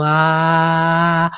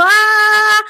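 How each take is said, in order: First: Low resonant heart Ah; heart-centred ah. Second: High loud pinched Ah; high tense Ah that "no sirve"; strained shrill ah. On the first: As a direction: let a deep Ah come from the chest. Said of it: "una A realmente de corazón". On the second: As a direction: push a tight high Ah from the throat. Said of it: "si yo tengo la voz así". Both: Shown as a demonstration.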